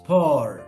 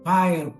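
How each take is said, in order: First: The vowel sounds like the one in 'four'. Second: The vowel sounds like the one in 'fire'. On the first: "the term used for fire is por" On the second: "You can also pronounce like pyre"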